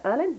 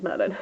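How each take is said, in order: First: "Erlin?" said without the M, questioning rise; dropped M, "Erlin?" asked up high; "Erlin?" as a puzzled stuffy-nosed slip; slip of the tongue. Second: Said in the usual way. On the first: Real, not acted. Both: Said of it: "What did I say about the cold?".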